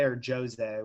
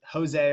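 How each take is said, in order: First: "Jose" with an English J, "JOE-zay"; English J pronunciation. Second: "Jose" with an H sound, "ho-ZAY"; Spanish J pronunciation. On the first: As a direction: offer "Jose" starting like Joe, slowly. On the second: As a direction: offer "Jose" starting like hoe, slowly. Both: Shown as a demonstration. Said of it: "whichever one we're going with".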